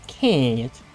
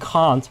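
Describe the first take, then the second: First: It is said with a southern US accent. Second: It is said without a southern US accent. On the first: The speaker calls it right. "but say can't" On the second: The speaker calls it wrong. "I should start with not saying can't"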